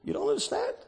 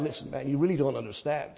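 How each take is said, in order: First: Quiet, disbelieving question thrown back; soft, sceptical retort to a complaining believer; incredulous echo. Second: Mock complaint. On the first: Shown as a demonstration. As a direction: echo the complaint as if it can't be true. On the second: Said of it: "but when things are going bad".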